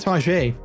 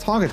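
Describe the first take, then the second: First: French-sounding pronunciation, stress on the last syllable. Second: Plain English pronunciation, stress on the first syllable. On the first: It sounds classy and upscale. The speaker calls it right. "call it Target. It's way more classy" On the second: It sounds ordinary. The speaker calls it wrong. "don't call it Target"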